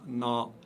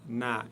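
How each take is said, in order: First: The syllable is pronounced heavy and full. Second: The syllable is pronounced light and thin. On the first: The speaker calls it wrong. "et non pas" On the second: The speaker calls it right. "prononcé légèrement"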